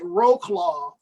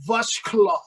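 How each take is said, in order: First: The name is given an anglicized English pronunciation. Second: The name is given a Polish-style pronunciation. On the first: This is how English speakers say it. "we would call it Wroclaw" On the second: This is closer to how locals say it. "but it's pronounced like Vushklov, like that, something like that"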